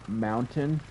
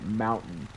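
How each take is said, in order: First: It is said in the standard way. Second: It is said in the local way. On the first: "when we say mountain" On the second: "we actually say mountain"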